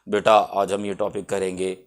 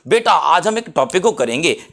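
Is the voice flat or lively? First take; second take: flat; lively. First: It is said in a flat, monotone voice. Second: It is said with lively, varied pitch.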